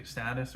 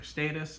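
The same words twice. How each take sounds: First: "status" with a short a, as in stat; first vowel of "status" as in cat. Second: "status" with a long a, as in state; first vowel of "status" as in day. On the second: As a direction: say "status" as STAY-tus. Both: Shown as a demonstration. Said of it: "whether we'd say status or status".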